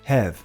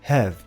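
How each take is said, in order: First: The vowel is a relaxed, neutral sound. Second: The same.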